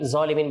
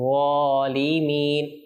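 First: The first consonant is a plain, light z sound. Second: The first consonant is a heavy, emphatic z sound. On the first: The speaker calls it wrong. "অনেকে যালিমিন যালিমিন বলে, তো যালিমিন হবে না" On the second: The speaker calls it right. "যাকে আমরা যেন ঠিক মতো আদায় করি"

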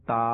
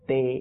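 First: It ends in an Arabic-style 'a' vowel. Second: It ends in an Urdu-style 'e' vowel. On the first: The speaker calls it right. "আরবি উচ্চারণ।" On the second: The speaker calls it wrong. "Urdu উচ্চারণ।"

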